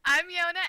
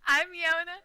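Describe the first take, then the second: No difference in how they are said.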